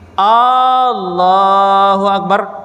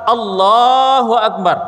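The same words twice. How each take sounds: First: The opening A vowel is drawn out long. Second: The L sound is held long, not the A. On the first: It asks whether God is great. The speaker calls it wrong. "alifnya panjang" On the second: It declares that God is great. The speaker calls it right. "Yang benar adalah Allahu Akbar. Lamnya yang dipanjangkan"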